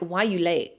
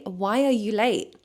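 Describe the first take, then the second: First: It is asked in a harsh, demanding tone. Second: It is asked in a soft, sweet, worried tone. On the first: The asker is accusing the other person. The speaker calls it wrong. "Don't ask like, why are you late? Like, don't say it like that" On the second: The asker is concerned about the other person. The speaker calls it right. "you need to be sweet about it"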